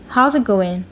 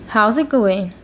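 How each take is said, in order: No difference in how they are said.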